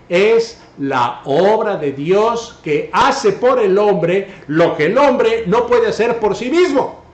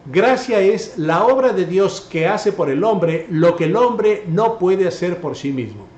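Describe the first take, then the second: First: It is said more slowly. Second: It is said at normal speed.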